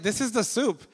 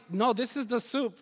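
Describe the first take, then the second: First: Higher, proud and bright announcing; husband proudly names his dish; proud claim. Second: Much higher, firm No; husband insists to his wife; insisting. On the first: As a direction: present it with pride. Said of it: "I was like". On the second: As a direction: stand by the dish. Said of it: "And I'm like". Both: Retold or imitated.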